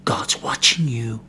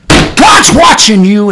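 First: Breathy hushed warning, slow; whispered warning that God sees. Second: Slow, louder and drawn out; slow booming warning; slow emphatic. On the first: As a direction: lean in and whisper it like a secret threat. Preacher whispers warning to congregation. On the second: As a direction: bring it back up to full voice, each word weighed. Preacher repeats warning aloud. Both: Acted.

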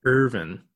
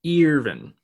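First: Irvin said with an er sound; plain Irvin. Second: Irvin said with an ee sound, higher. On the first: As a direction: Irvin pronounced ER-vin. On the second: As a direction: Irvin pronounced EER-vin. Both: Shown as a demonstration. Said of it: "repeated name, two ways".

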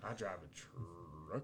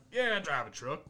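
First: Very slow, low, soft country drawl; exaggerated rural accent rolling out "truck". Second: Put-on a touch of country accent, slightly higher; lightly mock a rural truck owner's accent; mild country twang. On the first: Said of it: "What'd you just say?". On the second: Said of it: "Armada, they're just like".

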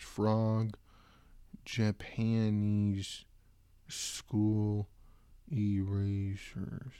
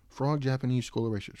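First: Drawn out word by word; slow typing dictation. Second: Said in the usual way. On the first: Real, not acted. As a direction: spell it out as you type.

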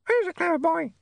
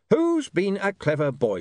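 First: Very high, squawky mimic voice; talking animal. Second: High, slow, mock-sweet praise; sarcastic cooing. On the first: A narrator's reading. Painted parrot echoes Saccharissa, very high animal voice. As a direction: parrot the phrase like a pet. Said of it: "said the dog". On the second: Saccharissa greets William sarcastically, mock-sweet. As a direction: coo it with sarcasm, drawn out.

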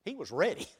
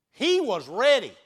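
First: Said in the usual way. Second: Louder with a laugh, "ready" stretched out; laughing repeat. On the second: Shown as a demonstration. Preacher laughs and repeats that Elijah was ready. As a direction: laugh and hit it again, louder.

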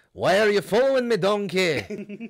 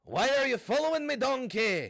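First: Loud, higher mock Shrek growl; Shrek impression. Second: Pitched way up, strained Shrek attempt; second try at Shrek. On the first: Friend hams up Shrek for the podcast, loud and high. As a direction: bellow it like a cartoon ogre. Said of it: "I can't do Shrek". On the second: Retrying Shrek after a B minus, higher and strained. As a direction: push the Shrek voice even higher. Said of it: "That got worse. Just louder".

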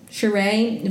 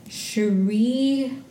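First: Sheree ending in an "ay" sound; corrected name. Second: Sheree ending in a long "ee"; name mispronounced. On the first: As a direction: say Sheree as "shuh-RAY". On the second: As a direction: say Sheree as "shuh-REE", drawn out. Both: Real, not acted. Self-corrects the pronunciation of a name.

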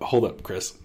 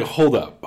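First: Said in the usual way. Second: A higher, louder first "Hold up," in disbelief; stunned hold up. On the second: Retold or imitated. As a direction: stop him short with "Hold up,". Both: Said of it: "I was like".

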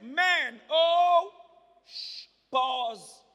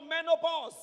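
First: "Men, oh, pause" in separate loud beats; loud, spaced-out "Men... oh... pause"; word split apart. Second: Said in the usual way. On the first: Shown as a demonstration. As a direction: break it into "Men", "oh", "pause", each on its own. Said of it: "Separate it". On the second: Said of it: "look at the word menopause".

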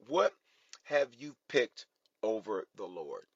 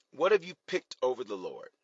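First: "What", pause, "have you picked", pause, "over the Lord"; word-by-word emphasis. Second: Said in the usual way. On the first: Real, not acted. Same question slowed for emphasis.

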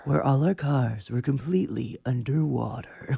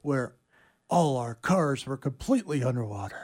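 First: Raspy, dramatic trailer narration; movie trailer voice. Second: A hint of trailer narrator; lightly voiced trailer line; movie trailer voice. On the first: Pretend. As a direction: sell the disaster like a trailer. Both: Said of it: "do the movie trailer".

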